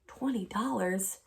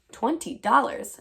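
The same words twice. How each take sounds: First: Softer and slow, taken aback; stunned question. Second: Higher and slow, savouring the sum; marvelling. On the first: Acted. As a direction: let the sum sink in quietly. Amelia stunned by the offer. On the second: A narrator's reading. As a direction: relish the amount. Narrator marvelling at the money.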